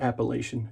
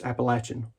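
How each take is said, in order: First: Appalachian said with LAY-shun at the end; wrong pronunciation of Appalachian. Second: Appalachian said with LATCH in the middle; preferred pronunciation of Appalachian. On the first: [name] showing viewers the wrong name, Appalachian with a long A as in "lay". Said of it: "It's Appalachian". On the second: [name] correcting viewers on his home region, Appalachian with a short A as in "latch". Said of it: "No, it's not Appalachian". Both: Shown as a demonstration.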